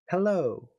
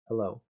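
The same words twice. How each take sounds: First: It is said with exaggerated, lively articulation. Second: It is said flatly and plainly.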